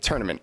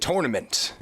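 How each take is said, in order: First: It is said in his everyday regional accent. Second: It is said in careful, formal announcer diction.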